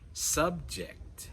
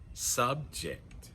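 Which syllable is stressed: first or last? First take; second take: first; first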